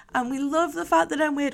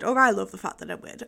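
First: Said in the usual way. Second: "I" stressed, quick self-correction. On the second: Shown as a demonstration. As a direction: punch "I", rest fast.

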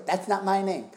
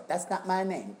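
First: High, loud goofy dad voice; dad impression. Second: High sing-song dad voice; goofy dad catchphrase, pitched up; dad impression. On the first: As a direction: belt the catchphrase like dad. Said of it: "he'd just go". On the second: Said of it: "he would just go".

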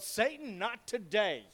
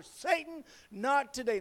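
First: Retold yell. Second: Mock shout pitched very high at the start; high, emphatic imitation of shouting, only slightly louder; retold louder shout. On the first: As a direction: imitate a defiant cry at moderate volume. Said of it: "and I yelled". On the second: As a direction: act out an even more defiant yell. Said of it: "I shouted even louder".

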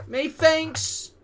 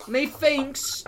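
First: Even higher, louder methinks; mock British accent. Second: Drawn-out high methinks; mock British accent. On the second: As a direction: stretch out Methinks like a pantomime villain. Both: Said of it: "in that same voice".

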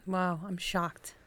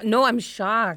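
First: Slow, quiet, deadpan wow; deadpan shock. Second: Louder, insistent shock; emphatic, sincere surprise; actually shocked. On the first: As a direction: sound unimpressed while claiming shock. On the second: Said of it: "Oh, actually shocked". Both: Real, not acted.

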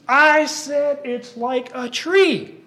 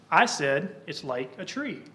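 First: High, loud and slow indignant yell; all up in the air. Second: Said in the usual way. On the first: Acted. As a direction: puppet Daniel blowing his top, insisting he's right. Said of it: "he gets all up in the air about this". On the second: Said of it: "he's trying to make a point".

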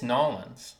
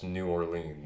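First: New Orleans squeezed into two syllables, "Nolans"; local pronunciation. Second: New Orleans with both words whole, or-LEENZ; full pronunciation. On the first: Correcting a friend on New Orleans, local pronunciation. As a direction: say Nolans, NAW-lunz, run together. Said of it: "That's how you pronounce it". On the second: Insisting on every syllable to a friend, full New Orleans. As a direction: say New Orleans fully, long ee. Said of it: "make fun of me for saying New Orleans". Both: Shown as a demonstration.

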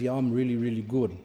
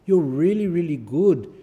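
First: Self-satisfied "really good", trailing down; proud helper agreeing smugly; smug pride. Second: Effusive, louder "really, really good"; gushing praise. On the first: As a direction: preen about it smugly. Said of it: "the person gets proud and says". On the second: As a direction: gush over them. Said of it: "the parents go". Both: Retold or imitated.

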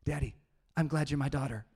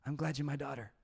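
First: Lightly voiced four-year-old girl, earnest; a hint of a small child's sweet mix-up; imitating his little daughter. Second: Gentle, loving and unhurried; tender dad. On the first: Dad imitates his daughter's bedtime reply, childlike. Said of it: "She grabs my face and gets my ear, and she says". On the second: Retold or imitated. Dad tells his daughter at bedtime, tenderly. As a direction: say it like tucking in your child. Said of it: "And then I say".

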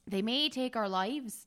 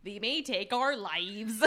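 First: Put-on accidental Scottish accent. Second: Slow Midwestern accent, each syllable spelled out; overpronounced, every syllable. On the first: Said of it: "Now you're going Scottish". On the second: Shown as a demonstration. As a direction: drag out "They may take our lives" syllable by syllable in a Midwestern accent. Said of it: "Just overpronounce every syllable".

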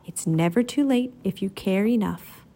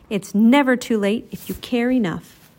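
First: Gently. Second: Said in the usual way. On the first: A narrator's reading. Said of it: "Tenderheart Bear said gently".

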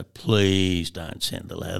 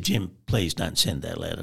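First: "Please" drawn out long, imitating a plea; retold begging with a slow, stretched "Please"; pleading. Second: Said in the usual way. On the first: Same plea repeated, drawn out.

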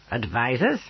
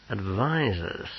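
First: "Advisors?" with a rising tune; questioning echo. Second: "Advisors," slow with a falling tune; grim echo. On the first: Companion queries news of "Advisors?", rising question. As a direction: query "Advisors?", lifting the end. Pismire queries the word just heard. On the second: Officer echoing "Advisors," slowly, grimly falling. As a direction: draw out "Advisors," and let it drop. Bain repeats the word grimly. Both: A narrator's reading.

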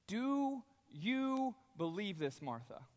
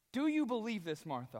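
First: Slow searching question. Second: Said in the usual way. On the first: Acted. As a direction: draw it out slowly, gently probing. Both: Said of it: "he asked this question".

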